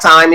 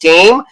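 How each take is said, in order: First: The vowel is a plain 'eye' sound. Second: The vowel is an 'ay' sound. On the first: "There's not time" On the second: "it's just tame"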